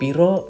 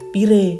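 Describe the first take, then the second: First: The word ends with an o vowel. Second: The word ends with an e vowel. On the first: "belakangnya o o o" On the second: "belakangnya e semuanya"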